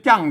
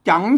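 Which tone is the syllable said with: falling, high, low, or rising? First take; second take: falling; rising. First: The syllable is said with a falling tone. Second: The syllable is said with a rising tone. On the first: "เสียงโทปกติ" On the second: "จังเสียงจัตวา"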